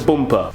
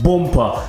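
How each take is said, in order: First: The word is said in a normal way. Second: The word is said in an exaggerated accent.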